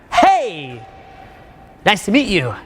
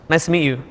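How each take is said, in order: First: Overly loud greeting. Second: Said in the usual way. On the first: Shown as a demonstration. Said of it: "Like that, it doesn't work". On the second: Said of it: "if I'm in a quiet state like that".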